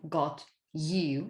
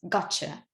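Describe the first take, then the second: First: The t and y stay separate sounds. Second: The t and y blend into a ch sound. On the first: "from got you" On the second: "very informal expressions such as gotcha"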